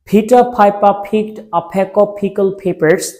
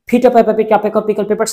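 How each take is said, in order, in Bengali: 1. বাক্যটি ধীরে ও যত্ন সহকারে বলা হচ্ছে। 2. বাক্যটি আরও দ্রুত গতিতে বলা হচ্ছে। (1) "আবার পড়বেন ধীরে ধীরে।" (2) "একটু স্পিডে বলার ট্রাই করবেন।"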